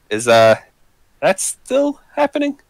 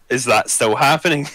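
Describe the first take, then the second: First: It is said in Lyko's put-on accent. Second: It is said in the speaker's own accent.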